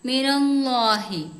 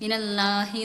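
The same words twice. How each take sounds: First: The 'la' sound is full and heavy. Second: The 'la' sound is light and thin. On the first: The speaker calls it right. "വായ നിറച്ച് ഈ ലാ എന്നുള്ള അക്ഷരം നമുക്ക് വരണം" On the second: The speaker calls it wrong. "എന്നല്ല"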